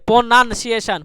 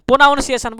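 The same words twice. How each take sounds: First: প্রনাউন্সিয়েশন as "po-nan-si-e-shan", with "nan" in the middle; a clear "nan", no "naun", in প্রনাউন্সিয়েশন; spelling pronunciation. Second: প্রনাউন্সিয়েশন run together quickly as "po-naun-si-e-shan"; pronunciation to avoid. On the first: Teacher modelling the word for students, প্রনাউন্সিয়েশন with a "nan". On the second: Teacher warning students off it, প্রনাউন্সিয়েশন with a quick "naun". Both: Shown as a demonstration. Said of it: "প্রনাউন্সিয়েশন বলবেন না".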